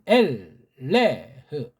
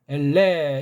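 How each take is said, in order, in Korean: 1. 마지막 h 소리가 분명하게 납니다. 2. 모음으로 끝나며 마지막 h는 없습니다. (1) "이건 엘레흐라고 읽는 것이 좋습니다" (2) "엘레 이렇게 이제 하는 거는 ... 무식한 거고"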